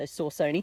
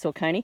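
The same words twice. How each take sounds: First: The first syllable sounds like the word sauce. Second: The first syllable does not sound like sauce. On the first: "looks like sauce to me, so Saucony" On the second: "but I think it's Saucony"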